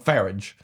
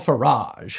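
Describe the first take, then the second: First: It is said in a British pronunciation. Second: It is said in an American pronunciation. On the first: "Unless you're British, and then his name would be" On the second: "whose name rhymes with garage"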